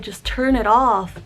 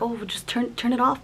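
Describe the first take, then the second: First: Louder, slow, drawn-out "turn it off"; retold firm insistence. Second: Retold mild request. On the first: Anxious, telling Dad to stop the noise, retold firm insistence. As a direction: lean slowly and firmly on each word. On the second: Asking Dad to switch the noise off, mild retold request. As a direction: brush it off lightly, hesitating on "turn".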